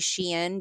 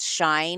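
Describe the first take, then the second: First: The name is said as two syllables, she-in. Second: The name is said as one syllable, like shine. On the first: The speaker calls it right. "I say Shein because back in the day" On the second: The speaker calls it wrong. "I really don't believe it's pronounced shine"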